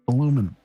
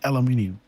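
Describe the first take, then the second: First: The word is said with four syllables. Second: The word is said with five syllables. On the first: This is how the audience says it. "You guys say aluminum, right?" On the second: This is the speaker's own way of saying it. "I'm saying aluminium"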